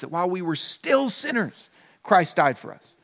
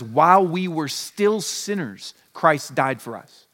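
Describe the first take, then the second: First: Said in the usual way. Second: Slow, weighty reading of scripture; solemn quoted verse, unhurried. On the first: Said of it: "God demonstrates his own love". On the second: Shown as a demonstration. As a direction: lay out each word of the verse slowly. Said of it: "the Bible says".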